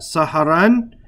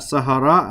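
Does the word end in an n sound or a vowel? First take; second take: n sound; vowel. First: The word ends with an n sound. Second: The word ends with a bare vowel. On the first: The speaker calls it right. "I should be reciting that like that, saharan" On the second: The speaker calls it wrong. "not sahara"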